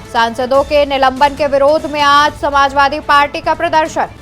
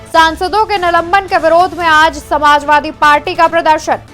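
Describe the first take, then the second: The two takes are said the same way.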